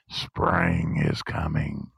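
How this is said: It sounds dark and foreboding.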